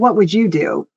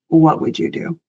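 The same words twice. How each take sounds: First: The question sounds annoyed and confrontational. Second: The question sounds sincere and open. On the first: The asker is venting frustration, not seeking advice. The speaker calls it wrong. "going off and say, well" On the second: The asker truly wants the other person's advice. The speaker calls it right. "And meaning it genuinely"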